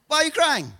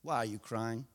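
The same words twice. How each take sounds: First: High-pitched challenge to the crier; puzzled angel, pitched up; mock incredulous. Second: Very soft, low question; hushed and tender; Jesus. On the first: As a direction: ask it as a pointed reproach. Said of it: "More like, "Where's your faith at?". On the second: Acted. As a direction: ask it gently, barely voiced. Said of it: "he says".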